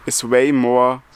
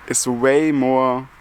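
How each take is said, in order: Both takes have the same delivery.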